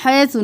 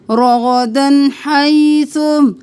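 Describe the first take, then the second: First: हैसु said quickly in a casual speaking voice; wrong pronunciation. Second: हैसु recited slowly, drawn out, with a clear ह; correct tajweed. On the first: Teacher showing students the wrong हैसु, quick and casual. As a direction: toss off हैसु fast, the wrong way. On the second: Teacher showing the correct हैसु, slow and clear. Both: Shown as a demonstration. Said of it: "हैसु नहीं करना".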